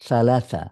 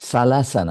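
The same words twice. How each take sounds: First: The first consonant is a th sound. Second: The first consonant is a hissing s sound. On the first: The speaker calls it right. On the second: The speaker calls it wrong.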